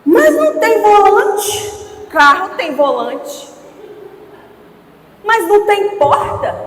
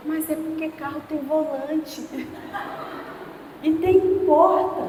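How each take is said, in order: First: Put-on loud, high, drawn-out little girl's protest; whining child. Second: Soft, lightly voiced little girl; mildly sheepish kid justifying herself; subdued child excuse. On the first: Father imitating his daughter complaining about her wooden car, whiny child. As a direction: imitate an indignant kid, dragging the words out. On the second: Father imitating his daughter explaining after a scolding, subdued child. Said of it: "acho que eu dei mancada".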